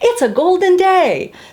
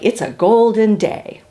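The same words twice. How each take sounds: First: It is said happily, with a smile. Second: It is said with firm conviction.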